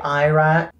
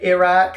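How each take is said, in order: First: It is said with an American pronunciation. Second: It is said with a British pronunciation. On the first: "Americans say Iraq" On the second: "British people say Iraq"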